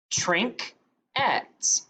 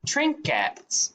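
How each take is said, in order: First: "Trinket" as trink, pause, et; split into syllables. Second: Said in the usual way. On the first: Shown as a demonstration. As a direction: break "Trinket" after the k. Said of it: "a two-syllable word". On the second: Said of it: "The word is".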